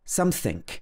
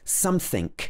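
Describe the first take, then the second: No difference in how they are said.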